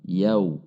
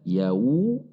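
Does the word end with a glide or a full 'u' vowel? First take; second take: glide; vowel. First: It ends with a soft, short rounded glide. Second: It ends with a separate full 'u' vowel. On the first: The speaker calls it right. "Lembut dan pendek" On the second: The speaker calls it wrong. "Tidak dibaca yawu"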